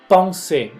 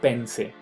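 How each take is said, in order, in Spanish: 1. El 'en' se pronuncia como un 'on' nasal. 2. El 'en' se pronuncia como un 'en' normal. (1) "pronúncienmela como on"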